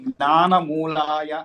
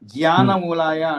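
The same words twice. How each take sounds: First: The first syllable begins with a nasal cluster. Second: The first syllable begins with a plain j sound. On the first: The speaker calls it right. "తస్మై జ్ఞాన మూలాయ అన్న చోట" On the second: The speaker calls it wrong. "అంటున్నారు"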